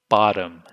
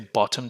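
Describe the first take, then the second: First: The middle consonant sounds like D. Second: The middle consonant is a crisp T. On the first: The speaker calls it right. "We say bottom. so the T morphs into a D sound" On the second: The speaker calls it wrong. "We don't say bottom"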